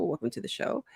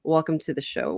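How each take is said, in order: First: A soft, higher echo of the welcome. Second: Said in the usual way. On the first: Acted. Host echoing her own show welcome, soft and higher. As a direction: repeat it quietly like a studio echo.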